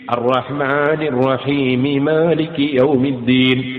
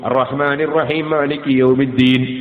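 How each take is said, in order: First: The m is voiced as 'mi', joining the next word. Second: The final m merges into the next m and disappears. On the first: The speaker calls it right. "മീമിന് കസ്റ് ചെയ്തിട്ട് മാലികി യൗമിദ്ദീൻ എന്ന് എടുത്തു ഓതണം" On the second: The speaker calls it wrong. "ഒരു മീമ് നഷ്ടപ്പെട്ടു പോയി"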